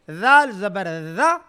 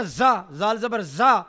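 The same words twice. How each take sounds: First: ذال زبر ذا slowly, tongue tip touching upper teeth; voiced th, long buzz on ذا; lisped dhal. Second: زا with a plain hissy z; wrong z for dhal. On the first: Teacher modelling dhal for students, lisped ذا. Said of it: "نیچے والی زبان کی نوک اور اوپر والے دانتوں". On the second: Teacher showing a student's mistake, z in زا. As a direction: say زال زبر زا with z, tongue behind the teeth. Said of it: "اس نے کیا غلطی کیا ہے؟". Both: Shown as a demonstration.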